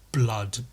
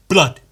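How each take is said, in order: First: Said in the usual way. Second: "Blood" loud and short, in one blunt hit. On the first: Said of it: "It's not like". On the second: Shown as a demonstration. Showing how the slang is said, blunt "Blood". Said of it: "it's said quite blunt".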